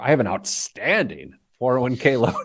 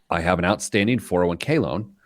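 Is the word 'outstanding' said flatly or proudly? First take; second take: proudly; flatly. First: It is read with a proud, boastful inflection. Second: It is read in a plain, neutral way. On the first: The loan is excellent. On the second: The loan is still owed.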